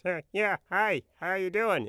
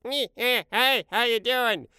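First: Higher mock impression of the old boss; boss imitation. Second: Friend's boss imitation. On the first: Showing his own imitation of the video house boss, pitched-up mock voice. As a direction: do your old boss's odd greeting, pitched up. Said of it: "And my imitation was". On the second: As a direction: squeeze it up high and drag the greeting out. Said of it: "And Mike's imitation was". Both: Shown as a demonstration.

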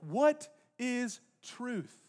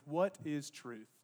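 First: High, drawn out word by word; very slow, ringing question; weighty rhetorical question. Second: Low, slow and soft; understated, pensive question; quiet parting question. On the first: Real, not acted. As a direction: stretch each word out for the congregation. Preacher repeats question to congregation. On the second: Acted. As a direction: let it fall slowly, almost to yourself. Pilate's parting question, retold.

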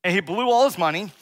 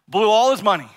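First: Said in the usual way. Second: ALL hit louder; stress on all. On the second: Shown as a demonstration. Preacher repeats it, stressing all. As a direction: lean on "all" in "Blew all his money".

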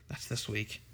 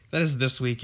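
First: Softly, as it sinks in; quiet realisation. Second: IS leaned on, full voice; stress on IS. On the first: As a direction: say it low-key, almost to yourself. Realises the convention is this week. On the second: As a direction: hit the word "is" to drive it home. Repeats it for emphasis to friends. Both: Real, not acted.

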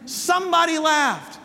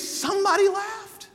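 First: Said in the usual way. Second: "somebody laughed" lifted much higher and lighter; "somebody laughed" sung out high and airy; light emphasis. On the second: Shown as a demonstration.

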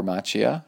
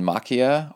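First: Macchia with CH as in "match"; soft CH variant. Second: Macchia with a hard K sound, MOCK-ee-a; hard CH variant. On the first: Podcaster offering another reading of a donor's surname, Macchia with soft CH. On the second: Podcaster offering one reading of a donor's surname, Macchia with K. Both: Shown as a demonstration. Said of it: "however he wants to say it".

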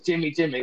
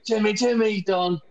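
First: Said in the usual way. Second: "Jimmy Jimmy" sung high in Northern Irish accent. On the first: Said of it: "instead of saying". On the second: Shown as a demonstration. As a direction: chant "Jimmy Jimmy" Belfast-style. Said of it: "you have to sing it in Northern Irish accent".

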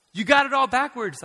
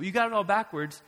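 First: High, loud rebuke; Jesus confronting. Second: A touch higher, calmer rebuke; Jesus, lighter take. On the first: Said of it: "Jesus shows up and says". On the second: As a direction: restate it more gently. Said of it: "I'm very much paraphrasing". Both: Retold or imitated.

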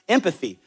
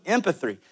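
First: Said in the usual way. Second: Empathy fumbled as "em-puh-three"; tongue-tied slip. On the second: Real, not acted. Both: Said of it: "I can't even say empathy".

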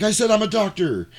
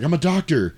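First: Much higher, exasperated protest; mock outrage, pitched way up; indignant insistence. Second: Raised pitch, announcing himself; retold insistence. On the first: Doctor brushed off by the men, indignant. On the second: Doctor trying to help at the scene, mildly insistent. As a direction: offer help in a higher voice.

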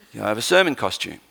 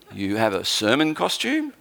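First: Said in the usual way. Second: Lower, drawn-up questioning rise; incredulous question. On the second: Retold or imitated. Host questions guest preacher about his costume, mildly incredulous. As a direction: query it in mild disbelief.

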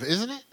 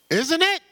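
First: Said in the usual way. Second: Much higher and louder "Isn't it?" pressing for an answer; demanding a response, pitched high; insistent louder repeat. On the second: Real, not acted. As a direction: call it out to the room. Question asked twice to congregation.

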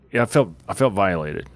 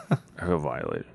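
First: Said in the usual way. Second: Lower, softer mock-wounded repeat; a half-joking hushed aside; quiet repeat. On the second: Real, not acted. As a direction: let it sink, hushed and low.

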